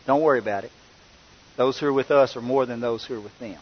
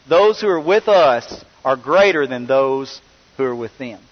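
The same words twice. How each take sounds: First: Calm reassurance. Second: Said in the usual way. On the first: Retold or imitated. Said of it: "And what does Elisha say?". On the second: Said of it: "My goodness, what a line".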